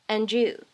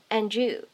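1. 前一个音会连到后面的词上。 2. 前一个音会连到后面的词上。

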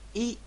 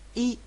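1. 这个元音短而急促。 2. 这个元音短而急促。

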